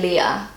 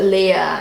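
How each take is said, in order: First: It is said the English way, less flowing. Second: It is said the German way, more flowing. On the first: "we would say Leah" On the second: "in German, they pronounce it ... it's got more of like a flow to it"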